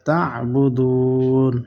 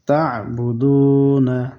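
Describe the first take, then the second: First: The word ends on a bare n, no vowel. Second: The final n is followed by a short a vowel. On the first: The reader stops at the end of the verse. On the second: The reading continues without stopping.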